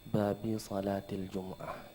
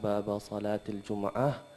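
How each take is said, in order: First: The first word ends in the vowel i. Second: The first word ends in the vowel a. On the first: The phrase is in the genitive case. "boleh juga bacaannya babi" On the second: The phrase is in the accusative case. "boleh bacaannya baba"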